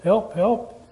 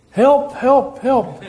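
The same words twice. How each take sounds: First: A softly voiced call for help, barely raised; hint of a stranded climber calling out; mild mock cry for help. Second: Climber clinging on, hammed-up panic; desperate cry for help. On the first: Climber on a cliff calls for help, understated. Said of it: "he started crying out for help". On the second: Climber refuses to let go, cries help more frantically. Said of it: "And he said".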